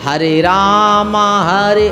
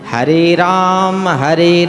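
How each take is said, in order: First: Ram is said with a long final 'aa'. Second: Ram is said with no final vowel. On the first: The speaker calls it wrong. "उच्चारण गलत कर देते हैं" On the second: The speaker calls it right. "इसका शुद्ध उच्चारण"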